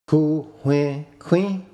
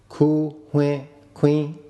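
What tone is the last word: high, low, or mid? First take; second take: high; mid. First: The last word is on a high tone. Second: The last word is on a mid tone. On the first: He bought a knife. "He bought a knife" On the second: He bought a grindstone. "Here it is a grindstone that is bought"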